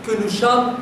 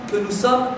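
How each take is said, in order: Both takes have the same delivery.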